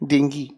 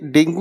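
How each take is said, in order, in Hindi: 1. शब्द 'ee' ध्वनि पर खत्म होता है। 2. शब्द 'oo' ध्वनि पर खत्म होता है। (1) "इसकी करेक्ट प्रोनाउंसिएशन ये है डेंगी" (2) "इसे डेंगू नहीं कहते"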